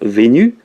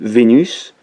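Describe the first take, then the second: First: The final S is silent. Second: The final S is pronounced. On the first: It keeps the rhyme but hides which goddess is meant. "Si on choisit le son pour rimer avec cornu, il faut dire Vénu" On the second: It makes clear the goddess is meant but loses the rhyme. "on va prononcer le S ... on entend le sens, mais plus le son"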